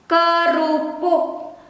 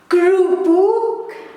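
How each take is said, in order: First: The word is pronounced with the first e vowel. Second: The word is pronounced the Dutch way. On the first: This is the formal Indonesian form. "the formal one with e" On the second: This is how Dutch speakers say it. "The Dutch pronunciation"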